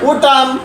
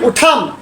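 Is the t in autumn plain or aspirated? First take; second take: plain; aspirated. First: The t is plain and unaspirated. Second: The t is aspirated, like British speakers.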